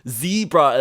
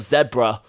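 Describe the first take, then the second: First: It is said with an American pronunciation. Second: It is said with a New Zealand pronunciation. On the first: "saying, uh, what's it called? Zebra" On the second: "instead of zebra"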